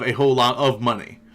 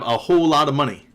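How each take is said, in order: First: The words 'lot of' are said in full. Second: The words 'lot of' are shortened to 'lotta'. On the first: "instead of" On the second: "L O T T A"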